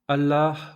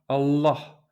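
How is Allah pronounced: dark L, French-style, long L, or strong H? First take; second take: strong H; dark L. First: The H sound is clearly pronounced in the word. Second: The L is dark, with the tongue curled back. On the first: "en prononçant le H" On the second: "avec un L emphatique"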